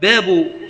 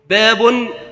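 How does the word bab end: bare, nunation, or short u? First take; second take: short u; nunation. First: The word ends with a short u sound. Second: The word ends with an added -un sound. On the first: The word is joined to the words after it. "فهذا على الإضافة إلى ما بعد" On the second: It means this is a chapter. "وأما التنوين وترك التنوين فعلى أنه خبر لمبتدأ محذوف"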